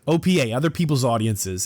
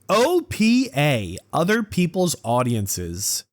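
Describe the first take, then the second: First: It is said with a neutral tone. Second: It is said with a contemptuous tone. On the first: "Let me let me tone that down a little" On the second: "Can you hear the contempt in my voice?"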